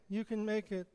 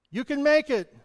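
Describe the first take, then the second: First: Much softer echo of the call. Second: High, loud encouragement; encouraging call. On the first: Preacher echoes the encouragement softly. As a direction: repeat it quietly like an echo. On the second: Preacher calls out encouragement to be echoed. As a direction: call it out to lift someone. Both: Shown as a demonstration. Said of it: "what you send out".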